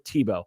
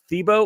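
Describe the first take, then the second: First: The name begins with a plain t sound. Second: The name begins with a th sound. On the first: "with the T sound" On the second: "with a T H"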